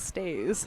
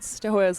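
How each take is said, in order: First: The name is said like Stays. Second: The name is said like Stoas. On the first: The speaker calls it right. "but it is Stays" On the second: The speaker calls it wrong. "we kept pronouncing it Stoas"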